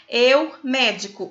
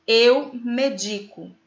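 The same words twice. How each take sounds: First: "médico" with an open, stressed MÉ; stress on first syllable. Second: "medico" slowly, with stress on DI; stress on middle syllable. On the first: Teacher showing what the accent changes, "médico" stressed on MÉ. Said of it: "se você colocar o acento". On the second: Teacher conjugating the verb, "medico" slow and stressed on DI. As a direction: say "medico" as me-DI-co, drawn out. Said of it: "conjuga o verbo na primeira pessoa". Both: Shown as a demonstration.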